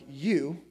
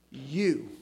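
First: Said in the usual way. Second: You said slowly, stressed as "you all"; you as plural. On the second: Shown as a demonstration. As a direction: lean on you to mean everyone. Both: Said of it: "So it doesn't mean".

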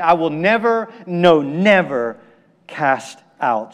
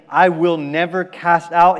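First: "never, no, never" hit hard, the second drawn out; emphatic double negative. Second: Said in the usual way. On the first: Retold or imitated. Preacher voicing Jesus' forceful promise, emphatic. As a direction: stretch the second "never", pause, then "cast out". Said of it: "for emphasis and forcefulness". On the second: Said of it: "here in saying".

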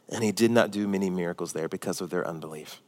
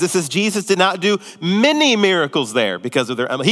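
First: Plain low read-through of the verse; quiet reading. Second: It says Jesus did not do many miracles, with "not" and "many" leaned on; emphatic reread. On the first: Pastor reading the verse to the church, softly. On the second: Pastor pointing the church at the verse's wording, emphatic. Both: Shown as a demonstration. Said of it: "look at what it says".

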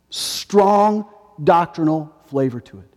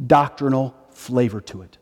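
First: Strong leaned on, slow and falling; stress on strong. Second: Said in the usual way. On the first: Shown as a demonstration. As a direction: press the word Strong as you repeat it.

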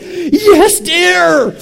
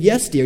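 First: High, loud hammed-up shout; mock battle cry, pitched way up; worked-up yell. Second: Quick, contained obedient reply; retold first attempt, only slightly raised; not yet convincing. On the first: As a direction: yell it with exaggerated, total conviction. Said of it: "I was like". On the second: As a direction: answer dutifully, without full conviction. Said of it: "You better say it like you believe it".

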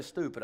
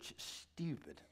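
First: Said in the usual way. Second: "stupid" with a drawn sh, much softer; hushed "stupid". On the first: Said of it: "I didn't say stupid". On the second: Shown as a demonstration. Father corrects how he said it, hushed "stupid". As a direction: hush the word "stupid" after a sh start. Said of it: "I didn't say stupid, I said".

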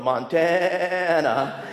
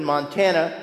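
First: Montana stretched very slowly, each syllable drawn long; teasing a seminary friend, slow mocking Montana. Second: Said in the usual way. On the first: Shown as a demonstration. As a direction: drag out Montana like an old joke. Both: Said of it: "as we used to make fun of him".

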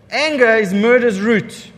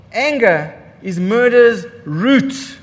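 First: Said in the usual way. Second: Slow emphatic. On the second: Shown as a demonstration. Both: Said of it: "repeated for emphasis".

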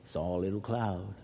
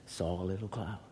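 No difference in how they are said.

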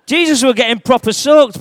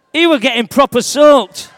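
First: Laughing through the line, getting wet. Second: Louder, over the storm; raised voice. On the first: Real, not acted. [name] laughing as the spray hits him. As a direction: let the laugh break through. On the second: Acted. [name] shouting over the storm to the kids. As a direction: call it out above the water spray. Storm scene, water sprayed.

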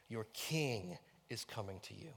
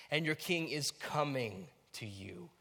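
First: "king" held out, the rest soft; stress on KING. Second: "coming" stretched and lifted; stress on COMING. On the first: Preacher walking through different emphases, stress on "king". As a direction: lean on the word "king". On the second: Preacher walking through different emphases, stress on "coming". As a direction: lean on the word "coming". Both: Shown as a demonstration. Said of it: "where you emphasize different words".

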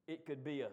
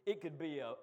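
The two takes are said the same way.

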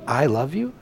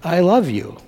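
First: Quiet, softer tender repeat. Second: Voicing Jesus. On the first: Acted. Pastor repeating Jesus's words to children, soft and tender. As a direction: let it land softly, just for them. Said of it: "When Jesus says to you". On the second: Pastor quoting Jesus to the children, lightly voiced. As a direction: say it as if Jesus were telling the kids. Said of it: "'Cause Jesus says".

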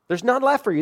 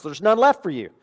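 First: Higher emphatic repeat. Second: Said in the usual way. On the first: Real, not acted.

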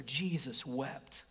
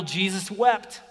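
First: Slow, quieter recitation; slow and soft. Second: Said in the usual way. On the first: Shown as a demonstration. Preacher leading scripture memory, slow and soft. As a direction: let each word sink in. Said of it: "We're gonna do scripture memory". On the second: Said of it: "Let's memorize John eleven thirty-five".

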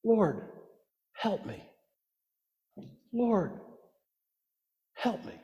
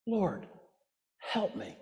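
First: Hushed, much softer plea at her feet; reverent whisper. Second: Desperate whisper. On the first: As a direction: whisper it like a kneeling prayer. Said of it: "hear her reverent whisper". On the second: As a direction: breathe it out in desperation. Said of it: "Do you hear the desperation?". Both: Retold or imitated.

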